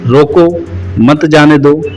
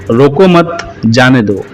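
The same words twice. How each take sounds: First: "रोको", a clear pause, then "मत जाने दो" together; pause after रोको. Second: "रोको मत" together, a pause, then "जाने दो"; pause after रोको मत. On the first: Teacher showing where the comma falls, pause after "रोको". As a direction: break right after "रोको", run "मत जाने दो" as one. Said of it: "अल्प विराम का प्रयोग "रोको" के बाद किया गया है". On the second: Teacher showing the third sentence, pause after "रोको मत". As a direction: break after "मत", let "जाने दो" fall. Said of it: "रोको मत के बाद लगा हुआ है". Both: Shown as a demonstration.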